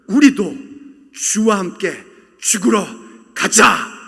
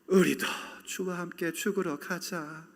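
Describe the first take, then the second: First: It sounds resolute and determined. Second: It sounds discouraged and dejected.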